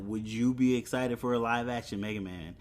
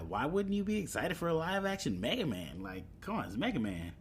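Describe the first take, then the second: First: Said in the usual way. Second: Incredulous. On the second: Real, not acted. Repeats question in disbelief.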